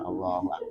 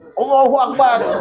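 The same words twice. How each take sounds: First: The phrase is said softly and gently. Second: The phrase is said loudly and forcefully. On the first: The speaker calls it right. "Pelan-pelan aja" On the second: The speaker calls it wrong. "Baca takbirnya jangan kencang-kencang ya"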